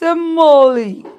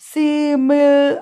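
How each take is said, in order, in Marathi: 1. हा शब्द तीन अक्षरांत म्हटला जातो. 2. हा शब्द दोन अक्षरांत म्हटला जातो. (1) "इट्स ॲक्च्युली प्रोनाऊन्स सिमोली" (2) "कसा उच्चार करायचा याचा? सिमिल असा करायचा?"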